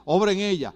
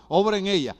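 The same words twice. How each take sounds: The two takes are said the same way.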